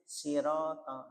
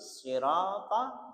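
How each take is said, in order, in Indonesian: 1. Bunyi s yang pertama itu tipis. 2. Bunyi s yang pertama itu tebal. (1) "jadi kayak sin sirata" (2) "sod itu sirata"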